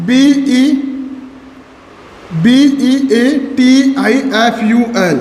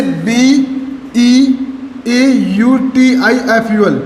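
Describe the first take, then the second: First: Letters of beautiful spelled slowly in the wrong order; slow, careful incorrect spelling. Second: Letters of beautiful spelled slowly one by one; slow, careful correct spelling. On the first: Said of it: "incorrect spelling हो गई". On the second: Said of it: "इन्हीं को क्या बोलते हैं? Spelling". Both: Shown as a demonstration.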